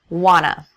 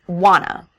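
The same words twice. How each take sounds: The two takes are said the same way.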